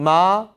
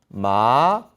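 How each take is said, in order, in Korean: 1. 일성으로 발음합니다. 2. 이성으로 발음합니다. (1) "일성 마" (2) "이성"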